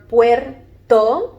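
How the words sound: It is said the Spanish way, in two syllables. "in English and in Spanish, you have two syllables"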